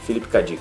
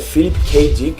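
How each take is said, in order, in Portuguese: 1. O nome é falado com sotaque português. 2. O nome é falado com sotaque inglês. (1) "a gente está no Brasil, eu falo" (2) "muitos aí vão dizer que a pronúncia certa é"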